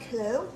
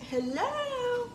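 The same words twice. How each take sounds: First: Said in the usual way. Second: Much higher, softer questioning hello; sing-song high phone greeting. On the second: Retold or imitated. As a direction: float the second hello up high. Answering unknown caller, second try.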